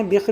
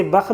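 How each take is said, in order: First: بخ said as "bikh" with a short i vowel; teacher sounds out بخ as "bikh". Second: بخ said as "bakh" with a short a vowel; teacher sounds out بخ as "bakh". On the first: Teacher to students, giving the other reading of بخ as "bikh". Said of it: "بخ بھی بول سکتے ہیں". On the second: Teacher to students, sounding out بخ as "bakh". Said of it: "اسے بخ بھی بول سکتے ہیں". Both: Shown as a demonstration.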